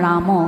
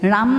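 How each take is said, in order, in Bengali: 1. শব্দটি একটি যোগ করা শেষ স্বরধ্বনি দিয়ে শেষ হয়। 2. শব্দটি শেষ ব্যঞ্জনে হঠাৎ করে শেষ হয়। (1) "সদায় স্বৰান্তভাৱে উচ্চাৰিত হয়" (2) "খৰা মৰাকৈ গাই থৈছে ৰাম নহয়"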